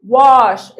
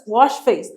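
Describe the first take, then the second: First: Wash said loud, the sh drawn out clearly; sh sound stressed. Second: Said in the usual way. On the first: Shown as a demonstration. Teacher drilling the class on the sh in wash. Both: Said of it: "اس اتش جات لك تاني أهي".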